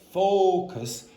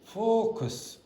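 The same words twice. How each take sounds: First: The first vowel is open and full. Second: The first vowel is closed and muffled. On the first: The speaker calls it right. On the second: The speaker calls it wrong.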